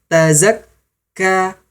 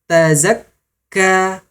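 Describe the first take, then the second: The two takes are said the same way.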